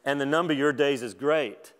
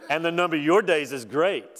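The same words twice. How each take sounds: First: Said in the usual way. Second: Dry mocking emphasis on "your"; God's sarcasm toward Job, a bit louder; sarcastic. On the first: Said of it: "I'm not saying God said it like this". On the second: Shown as a demonstration. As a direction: rub it in with mock praise. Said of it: "if you ever wondered if God was sarcastic".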